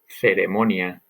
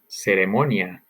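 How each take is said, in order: First: The c sounds distinct from an s. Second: The c sounds like an s. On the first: "and then again as you would hear it in Spain" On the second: "first as you would hear it in Latin America"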